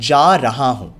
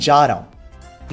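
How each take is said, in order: First: Each word is said clearly and separately. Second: The words merge together into one word. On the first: People rarely say it this way. "नॉट" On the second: This is how people usually say it. "हम कहते हैं"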